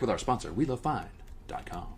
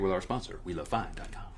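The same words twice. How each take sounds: First: It is said in a put-on radio announcer voice. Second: It is said in an ordinary speaking voice.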